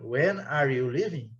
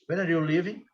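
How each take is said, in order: First: It is said slowly, one word at a time. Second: It is said very quickly, words run together. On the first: "Mas aqui não" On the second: "Muito rápido"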